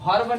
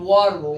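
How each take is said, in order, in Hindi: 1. शब्द की शुरुआत हल्की B ध्वनि से होती है। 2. शब्द की शुरुआत V ध्वनि से होती है। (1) "भर्ब नहीं"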